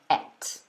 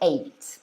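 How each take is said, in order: First: The vowel is the short E of egg. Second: The vowel is the long A of eight. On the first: "it's like the E of egg" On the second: "it's got the A sound"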